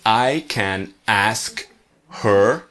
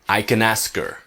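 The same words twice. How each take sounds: First: The h in her is clearly pronounced. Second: The h in her is dropped.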